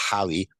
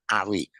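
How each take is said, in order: First: Harry with the H pronounced; sounded H. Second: Harry with a silent H, as 'Arry; Cockney-style Harry without the H; dropped H. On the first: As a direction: breathe a clear H at the start of Harry. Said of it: "it's supposed to be Harry with an H". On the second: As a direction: start Harry straight on the vowel, no H. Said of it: "it's definitely someone that would drop the H's". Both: Shown as a demonstration.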